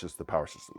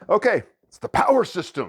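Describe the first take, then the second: First: Said in the usual way. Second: High, loud showman reveal on power; excited announcement. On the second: Acted. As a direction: announce it like a game show host. Announcing the game's name.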